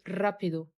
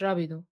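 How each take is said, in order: First: The initial r is strongly trilled. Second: The initial r is plain, not trilled. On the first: The speaker calls it right. "حرف الار بيتنطق بنسترس عليه شويه، بنقول رابيدو" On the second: The speaker calls it wrong. "مش رابيدو"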